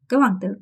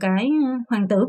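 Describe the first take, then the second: First: The word 'cái' links smoothly into the next word. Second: The word 'cái' is stretched out before the next word. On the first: "연음 처리가 돼서" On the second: "이런 식으로 지금 생각을 하시는 거지"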